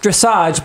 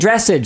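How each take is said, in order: First: It is said with a French-style pronunciation. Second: It is said with an anglicized pronunciation. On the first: The speaker calls it right. "I think it should be pronounced just dressage" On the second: The speaker calls it wrong. "but people keep saying dressage"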